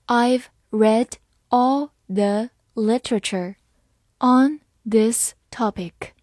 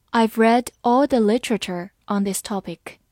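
First: Slowly. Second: Said in the usual way. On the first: Shown as a demonstration. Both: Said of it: "好，慢慢来读。".

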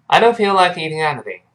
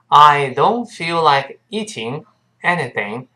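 First: Quick, run-together model sentence, higher pitch; faster demonstration. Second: Slow, word-by-word model sentence; slow demonstration. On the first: Teacher speeds up the sentence for learners, faster. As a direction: say it briskly with a weakened "I". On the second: Teacher models the sentence for learners, slowly. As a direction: say it slowly, stretching out each word. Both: Shown as a demonstration. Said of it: "我们再快一点".

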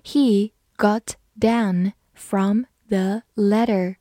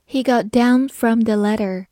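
First: Careful model sentence, each word set apart; slow reading. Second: Said in the usual way. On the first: Shown as a demonstration. Teacher reading along with learners, slow reading. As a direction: read slowly, word by word. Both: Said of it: "慢慢来读".

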